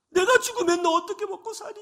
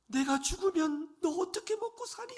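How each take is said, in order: First: High, louder, sobbing through the words; a mother weeping over her crippled son; crying mother. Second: Mother's lament. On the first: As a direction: voice breaking with tears. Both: Retold or imitated. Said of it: "어머니가 이렇게 말씀을 하셨답니다".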